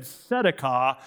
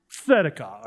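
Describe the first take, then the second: First: Tzedakah begun with a simple S sound; plain S mispronunciation. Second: Tzedakah opened with a strong TS; TS pronunciation. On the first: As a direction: mimic the learners' "tzedakah" as SEH-da-kah. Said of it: "not just S". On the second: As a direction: hit the T before the S in "tzedakah". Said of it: "no, that's T S, not just S". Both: Shown as a demonstration.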